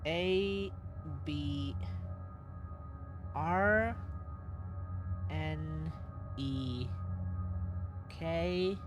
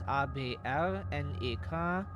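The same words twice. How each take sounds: First: The letters are named with English letter sounds. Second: The letters are named with German letter sounds.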